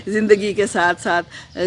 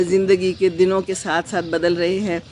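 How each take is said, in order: First: Slow words through a light laugh; chuckle, then say it. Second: Said in the usual way. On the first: Real, not acted. Laughs while rephrasing. (ہلکی ہنسی کے ساتھ)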